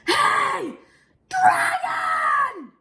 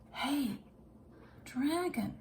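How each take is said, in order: First: It is shouted very loudly. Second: It is whispered very softly.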